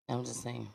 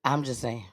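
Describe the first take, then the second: First: Much softer, almost to herself; quiet. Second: Said in the usual way. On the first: Real, not acted. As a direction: murmur it, fading away. Repeated remark, second take fades.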